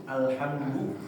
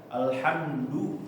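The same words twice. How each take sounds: No difference in how they are said.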